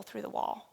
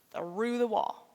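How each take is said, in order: First: Said in the usual way. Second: "through" drawn out for emphasis; stress on through. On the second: Real, not acted. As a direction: lean hard and long on "through". Repeats phrase to underline it.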